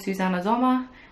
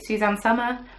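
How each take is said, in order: First: The name is said with German sounds. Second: The name is said with English sounds.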